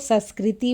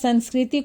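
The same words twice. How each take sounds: First: The first syllable is said without nasalization. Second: The first syllable is nasalized. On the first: The speaker calls it wrong. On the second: The speaker calls it right.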